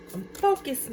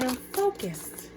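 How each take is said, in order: First: "focused" lifted high and stretched; high stress on focused. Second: "I'm" stressed, then "focused" slow and quiet; slow soft stress on I'm. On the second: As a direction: hold "I'm" and let the rest fall softly. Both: Shown as a demonstration.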